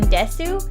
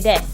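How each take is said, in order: First: The final u vowel is pronounced. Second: The final u vowel is dropped. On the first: The speaker calls it wrong. "there's a U in desu" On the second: The speaker calls it right. "you're actually just supposed to say des"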